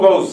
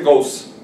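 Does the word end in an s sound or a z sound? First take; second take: z; s. First: The word ends in a buzzing z sound. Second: The word ends in a hissing s sound. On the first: The speaker calls it right. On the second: The speaker calls it wrong.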